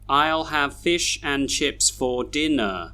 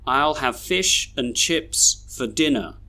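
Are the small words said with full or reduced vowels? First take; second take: full; reduced. First: The small words keep their full vowels. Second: The small words are reduced to schwa. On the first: The speaker calls it wrong. "how I read them just then didn't sound very natural" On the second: The speaker calls it right. "we should read these sentences like this"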